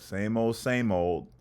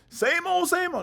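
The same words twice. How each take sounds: First: It is said flatly, with bored indifference. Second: It is said with joyful, lively excitement. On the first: Life feels dull and routine. "it's just like, whatever, check the box" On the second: Life feels fresh and worth celebrating. "They say to me with the utmost joy"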